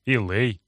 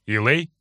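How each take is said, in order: First: Said in the usual way. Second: Startled rising question; surprised question. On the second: A narrator's reading. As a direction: catch the name in surprise. (удивлённо)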